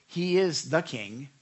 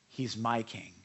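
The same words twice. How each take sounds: First: THE stressed in a slow "he is the King". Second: MY stressed in a lower, personal "He's my King". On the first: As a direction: say it slowly, stressing "the" before "King". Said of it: "you can say he". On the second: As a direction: lower the voice and lean on "my". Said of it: "but can you say". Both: Shown as a demonstration.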